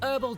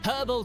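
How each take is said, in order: First: The word starts with a vowel, no h. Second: The word starts with an audible h sound. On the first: The speaker calls it wrong. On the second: The speaker calls it right.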